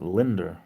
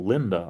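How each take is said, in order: First: The name ends with an added R sound. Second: The name ends in a plain vowel, no R. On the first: This is how a coworker says it. The speaker calls it wrong. "Linder, no Linda. I know Linda, not Linder" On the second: This is the proper form of the name. The speaker calls it right. "no Linda"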